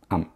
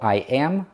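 First: It is squeezed into one short sound. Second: Both words are said fully and separately.

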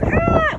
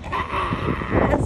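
First: A clear, full scream. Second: A raspy, hoarse scream.

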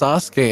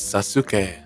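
First: The name is said the usual Japanese way. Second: The name is said with Spanish-style sounds. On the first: "they pronounce Sasuke as" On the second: "I don't know why they pronounce it that way"

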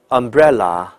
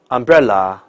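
The two takes are said the same way.

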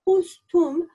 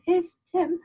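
First: The vowels are rounded o and u sounds. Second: Both vowels are e sounds. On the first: "The word hostum, for example, doesn't exist" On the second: "or hestem doesn't exist"

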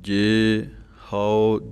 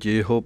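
First: The two words are said separately. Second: The two words run together as one. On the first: The speaker calls it right. "ਜੇ ਨੂੰ ਅਲੱਗ ਬੋਲ ਕੇ ਹਉ ਪਾਠ ਹੈ" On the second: The speaker calls it wrong. "ਕਈ ਜੇਹੋ ਪੜ੍ਹ ਜਾਂਦੇ ਹਨ"

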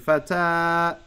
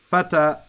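First: The final vowel is drawn out long. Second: The final vowel is short. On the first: The speaker calls it wrong. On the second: The speaker calls it right.

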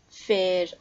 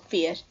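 First: The vowel is a single steady 'ay' sound. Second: The vowel glides from 'ee' to 'uh'. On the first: Older speakers or some dialects say it this way. "In some dialects and also a lot with older speakers, it's pronounced E" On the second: Younger speakers or other dialects say it this way. "In other dialects and also with younger speakers, it's often pronounced ear"

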